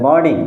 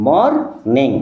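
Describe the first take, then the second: First: Said in the usual way. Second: মর্নিং with a gap between মর and নিং; split into syllables. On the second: Shown as a demonstration. Teacher counting syllables for a pupil, মর্নিং broken as মর, নিং. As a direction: separate the two syllables of মর্নিং. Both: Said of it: "এখানে দুটো syllable আছে".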